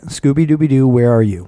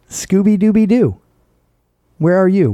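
First: It is said with a plain, unsmiling voice. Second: It is said with an audible smile. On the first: The speaker calls it wrong. "that was just normal face" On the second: The speaker calls it right. "so now I'm going to smile and say"

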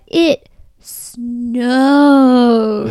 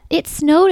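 First: The word snowed is said with strong, drawn-out emphasis. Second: The word snowed is said plainly, without extra emphasis. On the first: There was a huge amount of snow. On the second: There was an ordinary amount of snow.

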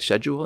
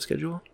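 First: It is said with a British pronunciation. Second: It is said with an American pronunciation. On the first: "Like British. When they say schedule" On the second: "instead of schedule"

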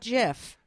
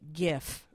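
First: It begins with a soft J sound. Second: It begins with a hard G sound. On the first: The speaker calls it wrong. "Not GIF" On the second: The speaker calls it right. "I'm going to go Guh. Like GIF"

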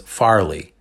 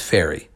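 First: The name is said with an L sound. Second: The name is said without an L sound. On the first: The speaker calls it wrong. "we mispronounced Shepard Fairey's name. We pronounced it as Farley" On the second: The speaker calls it right. "It's Fairey"

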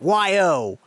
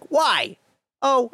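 First: Why and oh are run together as one. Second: Why is a separate question before oh.

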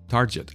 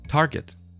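First: The middle consonant is a soft j sound. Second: The middle consonant is a hard g sound. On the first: The speaker calls it wrong. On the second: The speaker calls it right.

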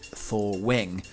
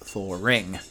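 First: The word is said without an R sound. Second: An R sound links the two syllables. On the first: This is the older pronunciation. "almost everybody said thawing pronounced thaw wing" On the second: This is the pronunciation most people use now. "with the intrusive R, which sounds like thaw ring"

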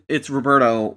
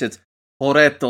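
First: It is said with an American accent. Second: It is said with a Puerto Rican accent.

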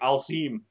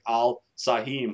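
First: The name is said quickly and run together. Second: The name is said slowly, sound by sound. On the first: "there were a couple times they were saying it really fast" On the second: "they would say it phonetically"

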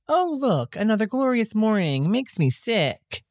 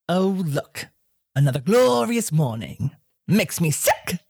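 First: It is said pleasantly, without sarcasm. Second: It is said sarcastically, with personality.

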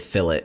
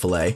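First: The word is said with a British pronunciation. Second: The word is said with a non-British pronunciation. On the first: "It's probably the British pronunciation, because I've heard them say fillet" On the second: "instead of fillet"

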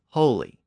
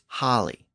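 First: The first vowel is at its highest. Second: The first vowel is at its lowest. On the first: This is the Modern English form. "And then in Modern English, it became holy" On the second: This is the Old English form. "In Old English, it was holly"

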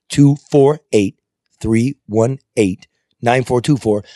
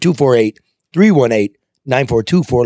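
First: The number is read slowly. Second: The number is read at normal speed.

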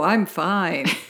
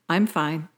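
First: It is said in a forced, unconvincing way. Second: It is said in a casual, believable way. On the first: The speaker is hiding that something is wrong. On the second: The speaker is really fine.

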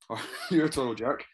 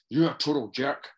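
First: It is said in a light, teasing tone. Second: It is said in a harsh, serious tone. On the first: It is a joke. "You laugh at the second one" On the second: It is a real insult. "they mean completely different things"

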